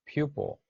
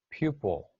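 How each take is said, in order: First: Pupil pitched high, then falling; pronunciation model. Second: Pupil at usual pitch, falling; pronunciation model. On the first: Teacher models pupil for the class, pronunciation model. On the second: Teacher repeats pupil for the class, pronunciation model. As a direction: say pupil on its own, settling downward. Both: Shown as a demonstration. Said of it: "learn how to pronounce these words".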